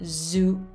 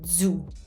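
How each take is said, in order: First: It begins with a soft, open z sound. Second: It begins with a closed, d-like dz sound. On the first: The speaker calls it wrong. "So it's not zu" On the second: The speaker calls it right. "It's zu, you have to pretend that you're about to do a D"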